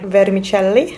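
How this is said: The word is said with an Italian accent. The speaker calls it wrong.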